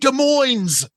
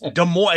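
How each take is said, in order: First: The S at the end of Des is pronounced. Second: The S at the end of Des is silent. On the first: The speaker calls it wrong. "both say the silent S in Des Moines" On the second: The speaker calls it right. "It's Des Moines"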